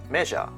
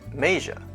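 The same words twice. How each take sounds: First: The first vowel is a single short sound. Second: The first vowel glides from A to E. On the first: The speaker calls it wrong. "some people pronounce it" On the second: The speaker calls it right. "The correct pronunciation is"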